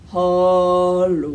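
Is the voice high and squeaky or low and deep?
low deep. It is said in a low Papa Bear voice.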